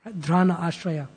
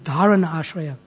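First: The vowel between d and r is dropped. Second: The vowel between d and r is pronounced. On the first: The speaker calls it wrong. "I'm pronouncing it slightly wrong" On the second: The speaker calls it right. "It's Dharana Ashraya"

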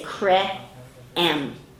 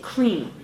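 First: The two vowels are said separately. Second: The vowels join into one sound. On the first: The speaker calls it wrong. "you don't say cre-m" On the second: The speaker calls it right. "You say cream"

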